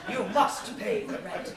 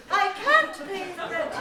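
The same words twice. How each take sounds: First: Louder, slow sneering villain; mustache twirling villain. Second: High, loud desperate heroine; damsel in distress. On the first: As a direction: lean into the villain's threat. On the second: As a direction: cry out like a helpless maiden. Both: Acted.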